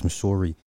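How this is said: It is said in a Canadian accent.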